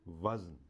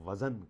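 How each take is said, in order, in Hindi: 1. z और n के बीच कोई स्वर ध्वनि सुनाई नहीं देती। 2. z और n के बीच छोटी 'a' स्वर ध्वनि सुनाई देती है। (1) "दुरुस्त लफ्ज़ है" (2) "जे पे ज़बर लगा देते हैं"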